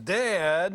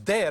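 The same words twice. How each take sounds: First: The word is said in a whiny voice. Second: The word is said in an excited voice. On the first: The child is complaining about a sibling. "my brother is teasing me again" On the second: The child wants to show something. "I'm so excited I want to show you something"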